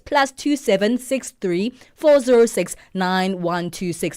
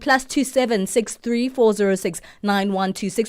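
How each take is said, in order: First: The number is said slowly. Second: The number is said at normal speed.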